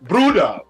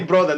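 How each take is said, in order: First: The word is said in a heavy accent. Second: The word is said in a plain accent. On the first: "With that heavy accent" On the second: "they don't say brother"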